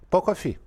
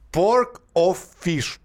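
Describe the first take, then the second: First: The final consonants of the words are dropped. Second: The final consonants of the words are pronounced.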